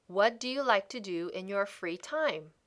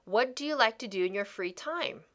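No difference in how they are said.

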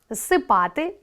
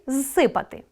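First: Зсипати with stress on па, rising; Зсипати, lean on па. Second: Зсипати with stress on си, falling; зсипати, hit си. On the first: Teacher listing the imperfective, stress on па. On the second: Teacher listing the perfective, stress on си. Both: Shown as a demonstration. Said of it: "Наголос допомагає розрізняти види".

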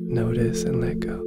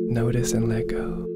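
The two takes are said the same way.

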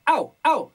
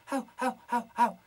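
First: Loud bright sealed au; sealed compressed au. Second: Said in the usual way. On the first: Shown as a demonstration. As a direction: clamp the sound, fully compressed. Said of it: "sellado y comprimido". (au sellado y comprimido) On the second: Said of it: "Y no".

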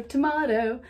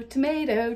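First: "tomato" with "mah" in the middle; broad-a "tomato"; contrasting pronunciation. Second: "tomato" with "may" in the middle; long-a "tomato"; usual pronunciation. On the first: Playing on two pronunciations, "tomato" with "mah". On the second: Playing on two pronunciations, "tomato" with long a. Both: Shown as a demonstration.

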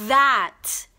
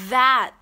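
First: "that" loud, tongue between the teeth, buzzing th; voiced th demo. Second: "That" loud, tongue between the teeth, buzzing th; voiced th repeat. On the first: Teacher models "that" for students, loud and buzzing. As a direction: punch out "that" with a strong voiced th. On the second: Teacher repeats "That" for students, loud and buzzing. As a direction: repeat "That" with the same strong buzz. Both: Shown as a demonstration. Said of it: "mình nói là".

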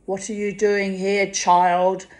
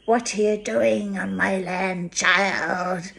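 First: Imitating an old Scottish woman, louder; a gruff Scottish scold at a child; mock Scottish old lady, sharp; Scottish brogue. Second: Lightly imitated Scottish scold, a bit louder; a mild mock Scottish crone; Scottish old woman. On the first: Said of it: "In her very strong Scottish brogue". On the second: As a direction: pretend to be old Missus Walker. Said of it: "so I too could go".

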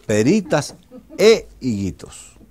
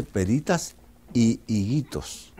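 First: "e" punched loud and separate before "higuitos"; corrected conjunction emphasized. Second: "y" held as a long i before "higuitos"; incorrect conjunction demonstrated. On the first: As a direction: slowly correct it, hitting "e" hard. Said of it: "se dice peritas e higuitos". ("e" recalcada y fuerte, como profesora de gramática) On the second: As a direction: slowly spell out "peritas y higuitos", stretching "y". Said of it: "no se dice peritas y higuitos". ("y" alargada, como profesora de gramática) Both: Acted.

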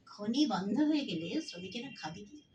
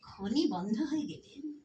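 First: Said in the usual way. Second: Slow, deliberate phrasing; slowly. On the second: Shown as a demonstration. Lecturer slowing down for the closing point, deliberate. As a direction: lay out each word of খনি বন্ধ হয়ে গেলে slowly. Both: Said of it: "আস্তে আস্তে বলছি".

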